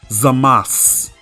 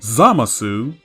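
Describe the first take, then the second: First: The final vowel is devoiced and silent. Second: The final vowel is clearly voiced. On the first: The speaker calls it right. "It's Zamas" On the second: The speaker calls it wrong. "No, no, no, no, no!"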